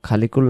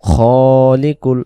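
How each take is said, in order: First: The first syllable is said with an open 'kha' sound. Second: The first syllable is said with a rounded 'kho' sound. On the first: The speaker calls it wrong. "অনেকে পড়ি খালিকুল খালিকুল না" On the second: The speaker calls it right.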